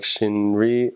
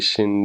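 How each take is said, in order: First: The middle consonant is a strong R sound. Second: The middle consonant is a light flap sound. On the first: The speaker calls it wrong. "a lot of people will say like shinri" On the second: The speaker calls it right. "It's supposed to be shindi"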